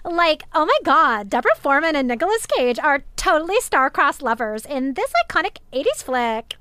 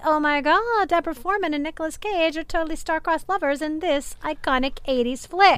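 First: Louder, higher, exaggerated Valley Girl voice; Valley Girl accent. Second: Lightly imitated Valley Girl voice, higher pitch; mild Valley Girl accent. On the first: Shown as a demonstration. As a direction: play up the Valley Girl for a friend's request. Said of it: "I wanna hear your Valley Girl". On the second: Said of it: "Ken doing his best Valley Girl accent".

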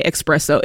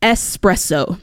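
First: "espresso" as expresso, said low; mispronounced espresso. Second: "Espresso" carefully as es-presso; correct espresso. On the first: Retold or imitated. Co-host quoting offenders who annoy her, "espresso" as low expresso. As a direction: say "espresso" wrongly with a k: ex-presso. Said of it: "when they say". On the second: Shown as a demonstration. Co-host schooling people, "Espresso" pronounced with a clear ess. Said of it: "It's not express, it's espresso".

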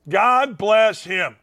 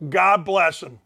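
First: God bless him drawn out slowly, each word weighted; slow emphatic repeat. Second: Said in the usual way. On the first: Real, not acted. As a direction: lean on it slowly, God hits first.

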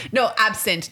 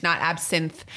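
First: Higher-pitched correction, "absent" ending in a clear t; hurriedly fix it to "absent", with a t at the end; corrected word. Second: "absinthe" ending in a th sound; wrong word rejected. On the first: Mother correcting her own voicemail slip, "absent" with final t. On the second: Mother correcting her own voicemail slip, "absinthe" with final th. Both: Retold or imitated.

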